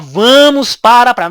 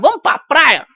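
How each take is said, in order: First: The words 'para a' are said in full. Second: The words 'para a' are shortened to 'pra'. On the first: The speaker calls it wrong. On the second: The speaker calls it right.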